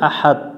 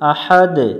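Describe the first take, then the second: First: The word ends in a t sound. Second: The word ends in a bouncing d sound. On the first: The speaker calls it wrong. "ওখানে পড়ি আহাদ" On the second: The speaker calls it right. "সূরা ইখলাস যখন আমরা পড়ি আহাদ"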